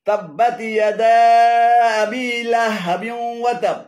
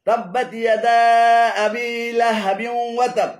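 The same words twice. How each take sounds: No difference in how they are said.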